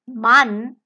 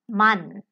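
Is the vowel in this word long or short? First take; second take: long; short. First: The vowel is held long. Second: The vowel is cut short. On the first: The speaker calls it wrong. "So it is not man" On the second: The speaker calls it right. "it will shorten the pronunciation of the vowel that comes before it"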